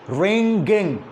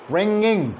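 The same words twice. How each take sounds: First: A hard G sound follows the ng. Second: No G sound follows the ng. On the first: The speaker calls it wrong. "There is G" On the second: The speaker calls it right. "But in reality, there is no G. It is like this"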